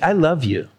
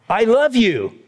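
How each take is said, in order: First: It is said in a warm, loving tone. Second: It is said in an angry tone.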